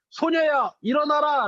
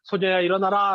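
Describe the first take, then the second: First: Higher, firm call of 소녀야, 일어나라; Jesus calling the girl to rise, firm command. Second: Put-on Jesus gently waking the sleeping girl, tender; gentle waking. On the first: Acted. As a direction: raise her with a clear command. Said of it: "라고 하면서 손을 잡고 이렇게 세우셨어요". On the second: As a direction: wake a sleeping child tenderly. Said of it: "잠자고 있는 아이에게".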